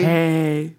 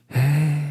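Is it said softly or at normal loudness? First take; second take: normal; softly. First: It is said at normal loudness. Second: It is said softly, close to the mic.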